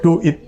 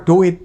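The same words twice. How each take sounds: First: "Duit" split like English "do it". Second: Said in the usual way. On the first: Shown as a demonstration. Preacher repeats it for church, "Duit" as English "do it". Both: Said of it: "Bukan duit".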